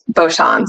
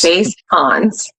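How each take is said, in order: First: The name sounds like 'Bosch'. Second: The name sounds like 'base Hans'. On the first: This is how most people say it. The speaker calls it wrong. "Everyone, everyone pronounced it Bosch" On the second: This is how the family says it. The speaker calls it right. "it's actually base Hans"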